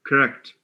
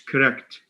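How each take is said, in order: No difference in how they are said.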